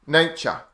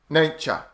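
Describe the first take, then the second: No difference in how they are said.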